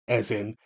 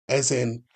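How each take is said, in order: The two takes are said the same way.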